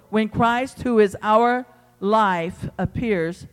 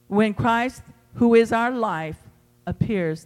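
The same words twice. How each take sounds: First: "our" drawn out slow; slow emphatic reading. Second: "is" lifted, quicker, rising joy; excited rereading. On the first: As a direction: lean on "our" and let "appears" fall. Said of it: "reads verse four". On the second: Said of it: "this gets better and better". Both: Shown as a demonstration.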